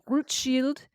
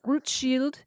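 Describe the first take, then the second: First: The name is said with a French accent. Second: The same.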